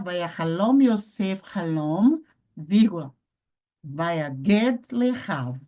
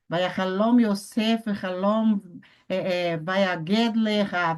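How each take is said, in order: First: It is read slowly, with a calm pause. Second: It is read hurriedly, with flustered hesitations. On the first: The speaker calls it right. "para que você leia pausadamente, bonito" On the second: The speaker calls it wrong. "Não precisa correr, pessoal. Não precisa se desesperar"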